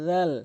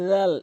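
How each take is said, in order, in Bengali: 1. এটি জিহ্বার আগা দাঁতের আগায় রেখে শুরু হয়। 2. এটি জিহ্বার আগা দাঁতের আগায় রেখে শুরু হয়।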